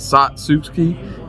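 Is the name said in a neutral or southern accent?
southern. It is said in a southern-sounding accent. It imitates how someone else says it.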